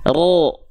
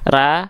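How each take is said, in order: First: The vowel is a thick, dark 'o'-like sound. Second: The vowel is a thin, clear 'a' sound. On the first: "angkat pangkal lidahnya yang asalnya ra menjadi ro" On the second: "ra itu tipis, pangkal lidahnya gak naik"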